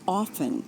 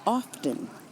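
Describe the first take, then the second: First: The T sound is left out. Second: The T sound is clearly pronounced. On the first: The speaker calls it right. "The T should be silent and it should be often" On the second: The speaker calls it wrong. "those of us who say often"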